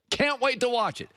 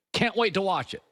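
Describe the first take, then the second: First: Higher, eager repeat of the line; gleeful anticipation, pitched up; eager relish. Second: Said in the usual way. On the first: Shown as a demonstration. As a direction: say it again, really savouring it.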